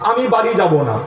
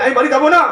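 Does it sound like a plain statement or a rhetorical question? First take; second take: plain statement; rhetorical question. First: It is said as a plain, falling statement. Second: It is said as a rhetorical, questioning exclamation. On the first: The speaker refuses to go home. "আমি বাড়ি যাব না মানে বাড়ি যাব না, না মানে নীতিবাচক।" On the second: The speaker will certainly go home. "তার মানে যাব ইতিবাচক।"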